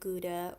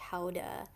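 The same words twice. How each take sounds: First: It is said with an English pronunciation. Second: It is said with a Dutch pronunciation.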